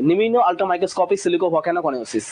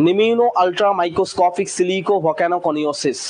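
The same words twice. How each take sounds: First: Slightly faster repeat. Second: "নিম্ন ultra microscopic silico volcano coniosis" said very slowly in one run; slow careful model reading; slow full read. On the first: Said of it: "ঠিক আছে". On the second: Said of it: "স্পিডে যদি বলি". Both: Shown as a demonstration.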